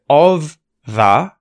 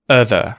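First: The two words are said fully and separately. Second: The two words are reduced and joined together.

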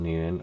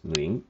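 First: The name has an anglicized English pronunciation. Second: The name has a Vietnamese-style pronunciation. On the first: "her last name is also Nguyen" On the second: "or in Vietnamese pronunciation is Nguyen"

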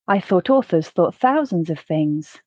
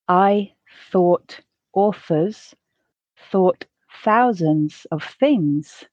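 First: The sentence is said at a natural pace. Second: The sentence is said at a slow pace. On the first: "once at a more natural pace" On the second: "once slowly"

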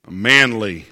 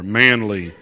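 First: It is said in a normal voice. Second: It is said in a lower, deeper voice.

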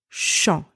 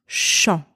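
First: It begins with a soft sh sound. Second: It begins with a soft sh sound.

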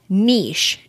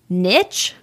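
First: Long 'ee' vowel, ending in an 'sh' sound. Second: Short vowel, ending in a 'ch' sound. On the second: "like N-I-C-H"

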